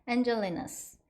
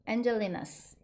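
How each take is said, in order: Both takes have the same delivery.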